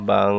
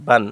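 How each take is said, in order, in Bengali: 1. n ধ্বনিটি নাকের গুঞ্জনের মধ্যে লুকিয়ে আছে। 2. n ধ্বনিটি ছোট এবং স্পষ্টভাবে উচ্চারিত। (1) "গুণ্য হবে এবং নাকের মধ্যে একটা আওয়াজ যাবে" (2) "তাড়াতাড়ি এবং স্পষ্ট করে পড়ব বান"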